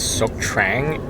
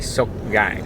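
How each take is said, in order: First: The second word begins with a T sound. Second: The second word begins without a T sound. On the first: The speaker calls it wrong. "it doesn't pronounce as Sok Trang" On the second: The speaker calls it right. "It's actually Sok Gang. The T is silent"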